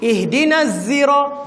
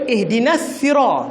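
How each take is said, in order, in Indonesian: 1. Kata ini dimulai dengan bunyi z. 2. Kata ini dimulai dengan bunyi s biasa. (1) "dibaca dengan zai" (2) "dibaca dengan sin"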